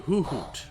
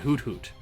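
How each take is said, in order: First: The first word ends without any t sound. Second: The first word ends with a clear t. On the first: "people who take out the the, the first T" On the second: "the first T in Hoot Hoot"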